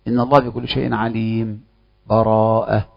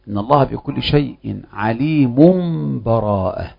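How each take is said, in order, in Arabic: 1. سكتة قصيرة بلا نفس قبل الكلمة الأخيرة. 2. تُوصل الكلمات مباشرة بلا فصل. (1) "السكت يكون بلا نفس" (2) "الوجه الأول الوصف"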